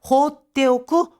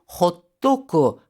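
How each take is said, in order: First: All syllables are said in full, as hotte oku. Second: The syllables are run together as hottoku. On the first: "호떼오크 대신에" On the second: "구어체에서는요. 호토쿠"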